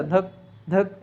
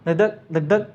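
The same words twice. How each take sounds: First: Each धक spaced apart with a pause; a slow धक, a gap, then धक; uneven, dragging heartbeat; slow broken heartbeat. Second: धक धक said in quick, even pairs; brisk heartbeat rhythm; quick steady heartbeat. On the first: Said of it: "ऐसा नहीं आता". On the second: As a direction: tap out a quick rhythmic beat. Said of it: "धक धक तुरंत आता है". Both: Shown as a demonstration.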